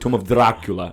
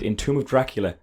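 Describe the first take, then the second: First: Dracula is said with an Italian-style accent. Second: Dracula is said with a plain English accent. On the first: The speaker calls it right. "That's better" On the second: The speaker calls it wrong. "You're mispronouncing the word Dracula"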